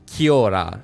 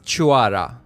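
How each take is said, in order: First: The word begins with a hard k sound. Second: The word begins with a ch sound. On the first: The speaker calls it wrong. "in the game they pronounce it Kiora" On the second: The speaker calls it right. "the correct pronunciation is Chuara"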